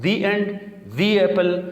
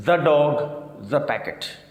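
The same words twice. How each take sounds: First: The as "dhee" before end and apple; long ee in the; higher, the said as "thee"; thee before vowels. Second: The as "dha" before dog and packet; short open vowel in the; thuh before consonants. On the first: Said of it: "زیر والی یعنی دی پڑھنا ہے". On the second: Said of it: "زبر والا the". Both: Shown as a demonstration.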